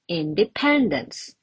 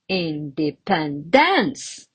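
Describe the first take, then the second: First: The stress falls on the usual syllable. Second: The stress falls on an unusual syllable. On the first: The speaker calls it right. "the correct one" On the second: The speaker calls it wrong. "another wrong one"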